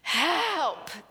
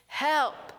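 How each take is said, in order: First: The word is said with more force and feeling. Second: The word is said with ordinary force.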